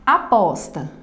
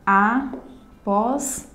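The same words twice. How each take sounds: First: Said in the usual way. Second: "Aposta" in three slow beats: a, pos, ta; syllable by syllable. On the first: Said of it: "A mesma coisa". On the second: Shown as a demonstration. Teacher showing three syllables to students, syllable by syllable. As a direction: pause after each syllable of "Aposta". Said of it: "uma palavra composta por três sílabas".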